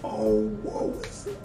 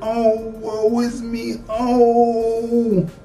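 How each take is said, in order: First: It is said quietly and subtly. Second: It is said loudly and theatrically.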